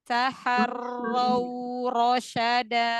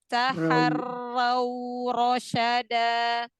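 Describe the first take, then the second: Both takes have the same delivery.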